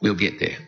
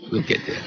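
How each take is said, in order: First: Said in the usual way. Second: Whispered repeat of the promise; whispered aside to the audience. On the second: Real, not acted. Promise, then quiet echo.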